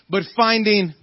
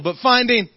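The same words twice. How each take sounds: First: It is said with little energy. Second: It is said with fervor and zeal.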